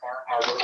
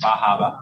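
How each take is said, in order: First: It is said with the r sounds pronounced. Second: It is said in a Maine accent, r-less.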